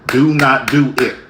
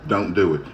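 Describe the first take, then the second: First: Louder, spelled-out warning, every word separate; loud final warning. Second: Said in the usual way. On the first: Retold or imitated. Fed-up speaker warning people who won't stop, loud. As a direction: slam down the last warning. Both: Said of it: "And I always say".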